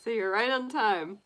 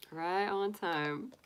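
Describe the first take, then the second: First: Said in the usual way. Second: Slow and softer, savouring it; slow soft echo. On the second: Real, not acted. Greeting a viewer who arrived on time, slow soft echo. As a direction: repeat it slowly and quietly, half to yourself.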